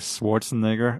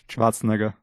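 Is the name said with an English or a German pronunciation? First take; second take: English; German. First: The name is said with an English pronunciation. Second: The name is said with an Austrian German pronunciation. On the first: The speaker calls it wrong. "we're both saying Schwarzenegger, although we're both from Austria and we know how to correctly pronounce his name" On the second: The speaker calls it right. "But just so you know"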